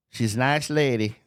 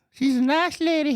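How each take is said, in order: First: Said in the usual way. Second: High, put-on sugary repeat of She's a nice lady; mock sweet voice. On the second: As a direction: coo it in a fake-sweet voice.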